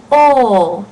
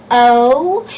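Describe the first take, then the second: First: Loud, held "O" as one unglided "aw"-like vowel; pure O vowel. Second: "O" gliding into "oo", tune rising; wrong diphthong O. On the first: Teacher modelling the right vowel, loud pure "O". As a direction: hold "O" steady, no glide to "oo". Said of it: "you want to say". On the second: Teacher showing what not to say, gliding rising "O". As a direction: say "O" as English "oh" with a glide. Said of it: "you don't want to say O". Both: Shown as a demonstration.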